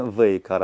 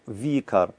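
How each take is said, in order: First: Вейкар with an "ey" after the v; mistaken pronunciation. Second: Викар with a plain "ee" after the v; no "ey" glide in Викар, just "vi"; corrected pronunciation. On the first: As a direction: say Вейкар as "vey-KAR", as the error to avoid. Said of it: "Не Вейкар, а Викар". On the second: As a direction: say Викар as "vee-KAR". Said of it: "а Викар". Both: Shown as a demonstration.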